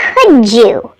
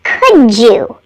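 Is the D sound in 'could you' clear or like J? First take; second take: like J; like J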